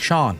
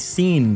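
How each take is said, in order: First: The name is said like 'shawn'. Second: The name is said like 'seen'. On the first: The speaker calls it right. "It's spelled in the Irish way. Like Sean" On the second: The speaker calls it wrong. "People have also called me Seen before. Like they've never seen me before"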